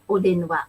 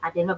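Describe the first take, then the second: First: The word begins with an 'o' vowel. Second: The word begins with an 'a' vowel. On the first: The speaker calls it right. "punya odenwa" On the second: The speaker calls it wrong. "kurang cocok, kurang sesuai seperti misalnya adenwa"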